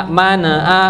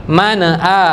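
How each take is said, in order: The two takes are said the same way.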